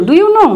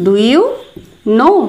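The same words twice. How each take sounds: First: High quick question; teacher's lively recap; higher, brighter repeat. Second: Spaced words ending in a rise; teacher dictation; slow demo. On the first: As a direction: sum it up with lift. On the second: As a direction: say it slowly for learners. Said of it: "এটার জন্য বলবো". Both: Shown as a demonstration.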